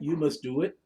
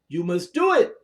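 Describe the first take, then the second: First: The voice stays flat without exclamatory rise. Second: The voice rises with exclamatory force. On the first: The speaker calls it wrong. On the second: The speaker calls it right. "the intonation of your voice has to, to, to rise"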